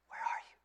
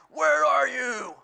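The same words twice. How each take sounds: First: It sounds gentle and inviting. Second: It sounds frustrated and accusing.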